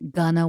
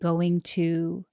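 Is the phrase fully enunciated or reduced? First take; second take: reduced; enunciated. First: The phrase is reduced to a blended gonna. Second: Both words are pronounced fully and clearly. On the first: The speaker seems casual and relaxed. The speaker calls it wrong. "not saying gonna" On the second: The speaker seems organized and precise. The speaker calls it right. "actually saying going to"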